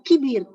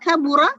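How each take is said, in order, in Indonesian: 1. Ada vokal 'i' dan dua suku kata. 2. Ada vokal 'a' terbuka dan tiga suku kata. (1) "ammiyahnya adalah kibir" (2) "Kabura bahasa fushanya"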